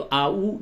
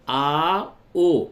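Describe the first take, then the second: First: आ ऊ with a close ऊ like "oo" instead of ओ; wrong reading shown. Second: आ ओ with a clear mid ओ, not ऊ; correct Urdu reading. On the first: Teacher shows students the wrong reading आ ऊ. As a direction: show the mistake आ ऊ, the vowel pulled up to "oo". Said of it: "ये गलत हो जाएगा". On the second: Teacher models the correct आ ओ for students. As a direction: say आ ओ, the ओ open and round like "oh". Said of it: "अब अगर इसको आप ऊ पढ़ते तो आ ऊ, ये गलत हो जाएगा". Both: Shown as a demonstration.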